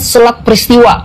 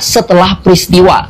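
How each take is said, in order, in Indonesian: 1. Kata pertama diucapkan terjepit dan tidak jelas. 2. Kata pertama diucapkan dengan lengkap dan jelas. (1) "Tadi dia mengucapkan selat peristiwa" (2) "mungkin yang dia maksud sebenarnya setelah peristiwa"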